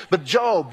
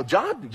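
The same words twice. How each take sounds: First: Job said with a long o, rhyming with robe; correct Job. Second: Job read as the word job, the work kind, naively; misreading Job. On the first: Shown as a demonstration. Preacher correcting how the name Job is said. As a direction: stress the long o in Job, like Joe plus b. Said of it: "his name's Joe". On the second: Retold or imitated. New believer opening his first Bible, naive misreading. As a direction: say Job like job as in a paycheck. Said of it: "and you go".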